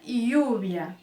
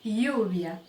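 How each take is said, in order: Both takes have the same delivery.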